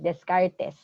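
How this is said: The name is pronounced in a Filipino style. The speaker calls it wrong. "Very Filipino pronunciation"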